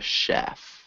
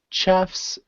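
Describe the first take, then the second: First: The word begins with a soft 'sh' sound. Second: The word begins with a hard 'ch' sound. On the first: The speaker calls it right. "soft S H" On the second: The speaker calls it wrong. "instead of saying"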